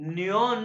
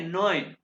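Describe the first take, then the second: First: The word sounds like 'nyon'. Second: The word sounds like 'noin'. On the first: The speaker calls it wrong. "न्योन नहीं है" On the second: The speaker calls it right.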